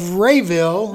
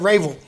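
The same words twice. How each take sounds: First: It is said in a standard pronunciation. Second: It is said in the local, swallowed pronunciation.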